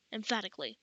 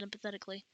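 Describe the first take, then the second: First: Said in the usual way. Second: "emphatically" slipped into "empathetically"; misread as empathetically. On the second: Real, not acted. Narrator stumbles on "emphatically", saying it as empathetically. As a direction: say "emphatically" wrongly, as em-puh-THET-ically. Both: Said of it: "not empathetically".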